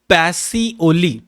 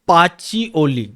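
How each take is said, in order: First: The middle consonant is an s sound. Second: The middle consonant is a ch sound. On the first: This is how people in our language say it. "आपल्या भाषेत याचं प्रनाऊन्सेशन होते" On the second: This is how the English say it. "इंग्रज याचं प्रनाऊन्सिएशन करतात"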